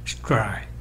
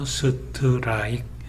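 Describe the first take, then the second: First: It is said as one single syllable. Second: Extra vowels split it into four syllables. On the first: "이런 식으로 한음절 우리가 이미 배웠다시피 하나의 봉우리를 만들면서" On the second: "으 발음을 집어넣어서 strike 이런 식으로 표기를 하는데 이렇게 되면 음절수가 지금 네 개가 되죠"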